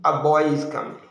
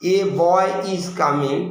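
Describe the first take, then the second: First: The article 'a' is reduced and unstressed. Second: The article 'a' is full and stressed. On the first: Some boy is coming, number not emphasized. "আ বয় জোর কম" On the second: Only one boy is coming, not two. "এ যখন জোর হয় তখন এ বয় মানে একটা বয় মানে one বয় বোঝায়"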